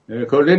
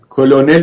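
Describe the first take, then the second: First: The word is said with an R sound. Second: The word is said with an L sound. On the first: This is the English pronunciation. "با ر میشه کرنل" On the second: This is the Persian pronunciation. "ما به فارسی کلونل میگیم"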